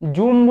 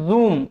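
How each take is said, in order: First: The first consonant is a 'j' sound. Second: The first consonant is a 'z' sound. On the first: The speaker calls it wrong. "জুম বললেই কিন্তু সমস্যা" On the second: The speaker calls it right. "এটার উচ্চারণ হচ্ছে জুম"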